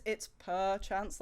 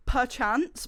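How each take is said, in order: First: Said slowly with a cat sound in it; purr-chance. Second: Said in the usual way. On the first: Shown as a demonstration. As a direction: stretch it out as a cat pun. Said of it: "like as in cats, like meow". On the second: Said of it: "but instead of perchance".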